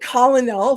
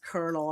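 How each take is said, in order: First: The word does not sound like kernel. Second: The word sounds like kernel. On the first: The speaker calls it wrong. "I was saying colonel for the longest time" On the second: The speaker calls it right. "Like a corn? kernel? And they're like, yeah, that's colonel"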